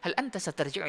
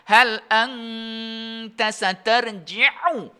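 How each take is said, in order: First: It is read plainly like everyday speech. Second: It is recited with Quran-style tajwid nasalization. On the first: The speaker calls it right. "Kalau untuk bahasa keseharian" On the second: The speaker calls it wrong. "Enggak boleh kamu"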